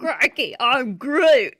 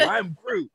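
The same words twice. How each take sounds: First: Loud, laughing Aussie Groot; mock Australian. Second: High, laughing Aussie Groot; mock Australian. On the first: Co-host joking about the Australian dub, loud and laughing. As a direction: shout it like a cartoon Aussie. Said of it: "He also says "crikey". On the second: Podcast host riffing on an Australian Groot, high and laughing. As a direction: toss it off as a silly Aussie Groot.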